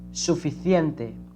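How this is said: The c sounds like th in thin. This is how it is said in Spain. "But in Spain, it is suficiente"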